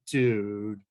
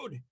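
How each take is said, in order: First: It sounds dismayed and disappointed. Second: It sounds thrilled and excited. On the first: The speaker is upset by something. "express consternation and disappointment" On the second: Something wonderful just happened. "If you just won the, the lottery"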